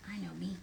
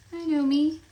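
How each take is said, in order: First: Said in the usual way. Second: Higher and louder, mock indignant. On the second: Real, not acted. Recognizing her own character's name, loud mock indignation. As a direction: announce it like it's obvious. Repeated loudly after a quiet take.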